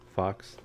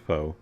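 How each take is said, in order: First: The word ends with an audible ks sound. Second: The word ends in a vowel, no ks sound. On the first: The speaker calls it wrong. "It's not fox" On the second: The speaker calls it right. "I don't think you pronounce the X"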